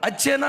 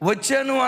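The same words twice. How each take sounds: First: It is said in the regional Medak dialect form. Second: It is said in the standard Telugu form. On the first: This is the form the region uses. "అంటారు" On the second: This is the form the region does not use. "అనరు"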